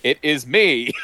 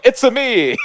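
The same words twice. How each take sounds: First: Un-accented failed attempt at a catchphrase; mock earnest imitation, raised pitch without the cartoon accent; Chris Pratt. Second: Very high, loud cartoon Italian accent; voice coach doing Mario. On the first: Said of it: "it cuts to Chris Pratt going". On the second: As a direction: squeal it like an exaggerated Mario catchphrase. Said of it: "the voice coach is there going".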